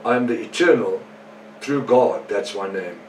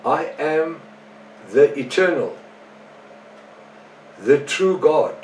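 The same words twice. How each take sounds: First: Brisker read-through in a usual pitch; quick re-reading. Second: Slow, higher-pitched scripture reading with pauses; deliberate reading. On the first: Preacher recapping verses with little time left, quick re-reading. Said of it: "read them quickly again". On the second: Preacher first reading the Moffat Bible verse, slow and deliberate. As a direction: read it out slowly, phrase by phrase. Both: Real, not acted.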